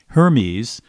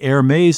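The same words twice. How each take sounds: First: The name is said with English pronunciation. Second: The name is said with French pronunciation. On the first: The speaker calls it wrong. "if you've been pronouncing that fancy French fashion company as" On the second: The speaker calls it right. "it's really Hermes in French"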